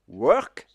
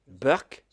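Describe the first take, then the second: First: It is said in standard English, starting with W. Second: It is said in an Indian accent, starting with B.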